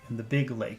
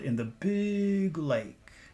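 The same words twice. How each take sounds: First: The word big gets no special emphasis. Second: The word big gets strong emphasis.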